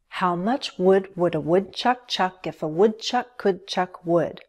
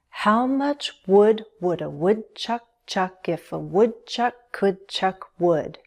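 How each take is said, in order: First: The sentence is said at a fast pace. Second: The sentence is said at a slow pace. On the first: "Then speed it up" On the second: "Say it slowly at first and find the rhythm"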